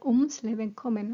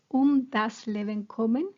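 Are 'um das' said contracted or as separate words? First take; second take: contracted; separate. First: Um and das are merged into ums. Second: Um and das are said as separate words.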